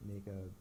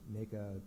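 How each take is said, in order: Both takes have the same delivery.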